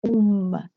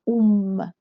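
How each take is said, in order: The two takes are said the same way.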